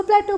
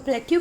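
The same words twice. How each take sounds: First: प्लेटो with a plain "o" ending; alternative pronunciation. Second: प्लेट्यू with a "yoo" ending; alternative pronunciation. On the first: Teacher showing students the other accepted way, alternative pronunciation प्लेटो ending in "oh". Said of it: "कुछ लोग इसको प्लेटो बोलते हैं". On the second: Teacher showing students how some people say it, alternative pronunciation प्लेट्यू ending in "yoo". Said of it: "कुछ लोग इसको प्लेट्यू भी बोलते हैं". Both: Shown as a demonstration.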